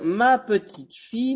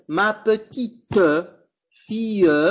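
First: The final E sounds are silent. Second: The final E sounds are pronounced. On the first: The speaker calls it right. "Quand je le prononce cette phrase, les E finales dans petite et fille ne se prononce pas" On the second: The speaker calls it wrong. "Je ne vais pas dire"

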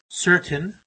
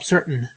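First: The t is pronounced as a clear t. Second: The t is replaced by a glottal stop. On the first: "I could pronounce that as a T, the first realization" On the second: "or I could opt for a glottal stop"

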